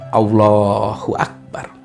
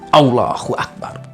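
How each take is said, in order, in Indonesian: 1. Diucapkan dengan nada biasa yang tenang. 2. Diucapkan dengan nada tegas, keras, dan serius. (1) "dengan nada biasa" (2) "dengan nada serius, dengan nada tegas, dengan nada keras"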